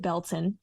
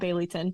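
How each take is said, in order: First: The name is said in the short local form. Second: The name is said fully, as it is spelled. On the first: This is how people from the area say it. "If you're from the area, you pronounce it Belton" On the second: This is how the name is written. "spelled Baileyton"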